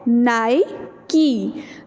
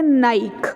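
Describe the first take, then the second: First: The word ends on an 'ee' sound. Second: The word ends on a 'k' sound. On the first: The speaker calls it right. "It is नाइकी" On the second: The speaker calls it wrong. "हम इसको बोलते हैं नाइक, जो कि गलत है।"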